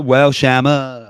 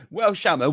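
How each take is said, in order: First: Slow and louder, stretching each word; drawn-out mock scolding. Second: Said in the usual way. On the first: Friend teasing Joe by stretching his nickname slowly and loudly. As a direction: drag out Shammer like a teasing reprimand.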